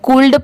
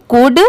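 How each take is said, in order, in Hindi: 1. अंतिम D से पहले L की ध्वनि सुनाई देती है। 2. अंतिम D से पहले L की कोई ध्वनि सुनाई नहीं देती। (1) "बहुत सारे लोग इसे गलत प्रोनाउंस करते हैं, इसे कूल्ड पढ़ते हैं" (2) "लेटर एल है वो लेटर साइलेंट है"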